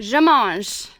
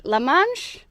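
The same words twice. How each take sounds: First: "Je mange" repeated carefully after the correction, /ʒə mɑnʒ/; "Je mange" echoed louder, copying the French speaker; corrected French. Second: "La mange" said as a hesitant guess at French, with a questioning rise; "La mange" tentatively asked, slightly off French; wrong French. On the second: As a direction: try "La mange" unsure, as a learner's mistaken French. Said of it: "How do you say, "I eat"?". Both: Shown as a demonstration.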